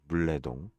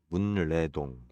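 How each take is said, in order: First: The first syllable ends in an l sound. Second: The first syllable ends in an n sound.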